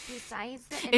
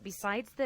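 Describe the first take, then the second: First: It is read in an imitated put-on voice. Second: It is read in the speaker's normal voice. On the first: "I should have just read this one in the Rachel voice" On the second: "I'll read it in normal voice to not annoy anyone"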